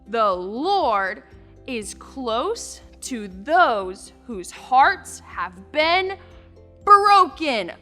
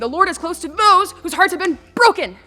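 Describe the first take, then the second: First: It is said at a medium speed. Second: It is said very fast.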